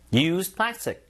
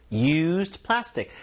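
First: Said in the usual way. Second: Drawn out slowly for learners; very slow, syllable by syllable. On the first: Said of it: "쉽죠?". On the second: Shown as a demonstration. Teacher slowing down so students can follow. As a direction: spell it out slowly with the voice. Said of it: "이미 사용된 뭔가의 플라스틱".

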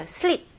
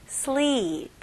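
First: Sleep said short and clipped, the wrong way; short wrong vowel. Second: Sleep with the ee held long, the right way; long vowel. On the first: Teacher demonstrates the wrong short vowel in sleep to students. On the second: Teacher shows students the correct long vowel in sleep. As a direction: draw out the ee in sleep. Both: Shown as a demonstration. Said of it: "이게 아니고 sleep".

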